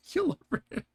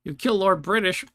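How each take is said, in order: First: Much higher, laughing disbelief; amused disbelief. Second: Said in the usual way. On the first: Real, not acted. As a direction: repeat it stunned and giggling. Disbelief at killing Lord British.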